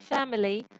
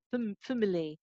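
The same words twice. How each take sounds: First: Said in the usual way. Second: "family" with its first vowel wrongly reduced to a schwa, like "fuh-mily"; schwa in first syllable. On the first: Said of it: "fam is always going to be". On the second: Shown as a demonstration. Teacher showing what you cannot say, "family" with a schwa for a. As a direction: say "family" as "fum-ly", softer, weak first vowel. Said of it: "say this syllable with a schwa".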